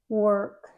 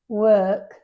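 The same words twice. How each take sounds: First: It is said in an American accent. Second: It is said in a British accent. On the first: "Like in American English" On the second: "But in British English"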